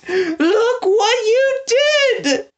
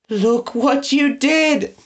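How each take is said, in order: First: Much higher, slow anguished wail; wailing accusation. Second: Slow, higher, tearful lament; drawn out through sobs; sobbing accusation. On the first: Prisoner repeats the blame, wailing higher. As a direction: let it break into a wail. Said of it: "said the prisoner". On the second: Prisoner blames Eggs, sobbing slowly. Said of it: "sobbed bitterly". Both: A narrator's reading.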